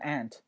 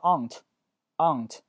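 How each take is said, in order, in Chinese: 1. 这是用美式口音说的。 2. 这是用英式口音说的。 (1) "美式发音会读成aunt" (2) "英式发音会读成aunt"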